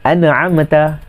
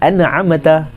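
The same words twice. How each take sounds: No difference in how they are said.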